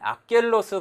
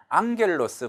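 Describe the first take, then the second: First: A k sound comes before the g. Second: An ng sound comes before the g. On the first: The speaker calls it wrong. "악겔로스 발음을 안 하고" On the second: The speaker calls it right. "요게 엔지 발음으로 응 하는 발음으로 나와요"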